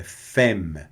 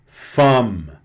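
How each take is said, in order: First: Femme with an open e, fem; correct femme. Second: Femme with a nasal fam sound; wrong nasal femme. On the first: Teacher giving students the correct femme. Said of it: "é femme". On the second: Teacher showing students the wrong nasal femme. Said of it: "não é femme". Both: Shown as a demonstration.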